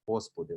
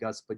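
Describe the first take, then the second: First: The word begins with a breathy H sound. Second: The word begins with a hard G sound. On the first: The speaker calls it right. "you have the H sound" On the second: The speaker calls it wrong. "You don't sing Gospodi"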